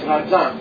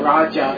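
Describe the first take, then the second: First: The middle consonant is a z sound. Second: The middle consonant is a j sound. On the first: The speaker calls it right. "it's Rajan" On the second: The speaker calls it wrong. "it's not Raja"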